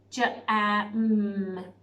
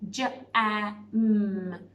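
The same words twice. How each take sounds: First: Each sound is said separately with gaps. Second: Each sound is said separately with gaps.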